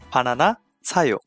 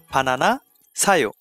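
Both takes have the same delivery.

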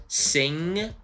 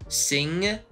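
Both takes have the same delivery.

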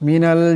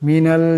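Both takes have the same delivery.

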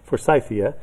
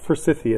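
First: The middle syllable sounds like the name Forsyth. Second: The middle syllable differs from the name Forsyth. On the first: This follows the name of the man it honors. "instead of Forsythia" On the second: This is how most people in the States say it. "most people in the States call it Forsythia"

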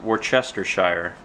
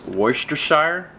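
First: The word is said closely following its spelling. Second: The word is said differently from its spelling. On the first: This is the literal pronunciation of the word. "it's literally pronounced Worcestershire" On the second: This is how the family has always said it. "my family's always pronounced this Worcestershire"

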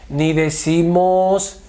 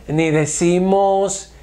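Both takes have the same delivery.

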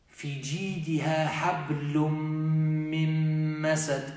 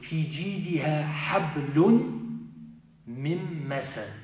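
First: The n blends into the following m. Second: The n is pronounced clearly before the m. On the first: It is read following Tajweed recitation rules. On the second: It is read as in ordinary Arabic.

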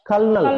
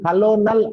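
First: It is said with two syllables, kal-nal. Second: It is said with three syllables, ka-lo-nal. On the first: The speaker calls it right. "ఇది కల్నల్ అనాలి" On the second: The speaker calls it wrong. "కలోనల్ అనకూడదు"

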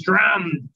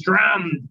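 First: It is said with a German accent. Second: The same.

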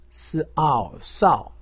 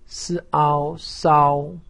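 First: The pitch falls sharply from high. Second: The pitch stays high and level. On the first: "四声" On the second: "一声"

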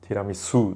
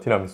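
First: The accent falls on the lengthened final syllable. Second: The word has no accent on the final syllable. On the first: This is how it is said abroad. The speaker calls it right. "うにアクセントを置かないといけない" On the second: This is how it is said in Japan. The speaker calls it wrong. "日本ではティラミスって言うんですけど"

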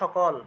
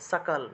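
First: The word begins with an 'sh' sound. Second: The word begins with a clear 's' sound. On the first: This is the Bengali way of saying it. "বাংলায় বললে তো সকল" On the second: This is the Sanskrit way of saying it. "সংস্কৃতে বললে সাকাল"

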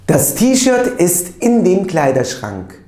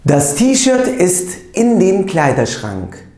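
The two takes are said the same way.

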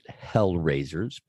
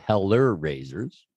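First: The first part is said as one syllable, hell. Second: The first part is said as two syllables, heller. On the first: This is how the owners say the name. "We pronounce it Hell Raisers" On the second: This is how the name is written. "but it's spelled Heller Raisers"

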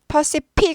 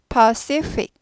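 First: Both consonants are said as P sounds. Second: Both consonants are said as F sounds. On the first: "둘 다 P 하시기 쉬운데 절대 아니고" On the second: "둘 다 F를 하시거나"

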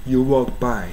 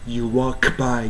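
Both takes have the same delivery.

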